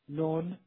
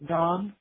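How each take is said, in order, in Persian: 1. واکه بین 'aa' و 'oo' است. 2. واکه یک 'aa' باز است.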